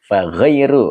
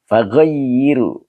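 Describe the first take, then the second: First: Said in the usual way. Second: "Faghayyiru" stretched out slowly, every syllable spelt out clearly; slow careful reading. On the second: Shown as a demonstration. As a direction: read "Faghayyiru" slowly and carefully, like a teacher giving an example. (baca "Faghayyiru" pelan-pelan dan jelas per suku kata) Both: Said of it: "Ma anta fihi".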